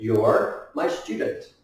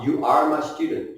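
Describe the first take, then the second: First: It starts with one shortened word. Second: It starts with two separate full words. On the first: "you pronounce it like your" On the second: "You are"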